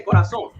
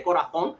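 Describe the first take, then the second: First: Corazón with an s sound for the z; Puerto Rican pronunciation. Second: Corazón with a th sound for the z; Castilian pronunciation. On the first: Showing how Puerto Ricans say it, corazón with plain s. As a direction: say corazón with seseo, "co-ra-SON". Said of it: "we say corazón". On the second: Showing how Puerto Ricans don't say it, corazón with Castilian th. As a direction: say corazón the Spain way, "co-ra-THON". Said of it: "We don't say corazón". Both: Shown as a demonstration.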